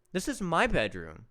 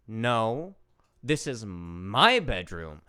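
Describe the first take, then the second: First: Said in the usual way. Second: Slow, lower imitation with a leaned-on MY; sassy child. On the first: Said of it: "I say, But". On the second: Four-year-old claims the bedroom from her uncle-to-be, imitated sass. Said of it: "Stephanie has so much sass".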